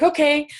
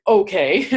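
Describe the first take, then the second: First: Bright, easy-going okay, pitched higher; cheerful okay. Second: Grudging okay with a questioning rise; reluctant okay. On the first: Answering her body with a cheerful high okay. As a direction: agree happily without a second thought. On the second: Conceding to her body with a hesitant, reluctant okay. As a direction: give in half-heartedly. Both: Retold or imitated. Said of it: "Well, I wasn't quite like".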